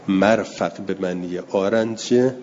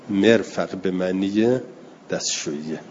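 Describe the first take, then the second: First: مرفق said as marfaq, mim with fatha; مرفق with a clear 'a' after the m, marfaq. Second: مرفق said as merfaq, mim with kasra; مرفق with a short 'e' after the m, merfaq. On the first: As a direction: open the first syllable of مرفق: mar-faq. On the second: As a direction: front the first syllable of مرفق: mer-faq. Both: Shown as a demonstration. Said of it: "احتمالاً اشتباه باشه که بگیم که به کسر میم".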